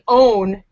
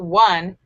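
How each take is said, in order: First: The word starts with a long O sound. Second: The word starts with a W sound. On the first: This is how the spelling suggests it sounds. "It should say own" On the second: This is how the word is actually said. "not one"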